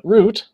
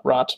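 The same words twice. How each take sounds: First: "root" said with a long oo, as in boot; the right reading "root", long oo, pitched up; "root" set high with a long oo, as the correction; correct vowel. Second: "rot" said with a short o, as in rot; the wrong reading "rot", short o; "rot" said quietly with a short o, as the mistake; wrong vowel. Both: Shown as a demonstration. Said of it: "not rot, but root".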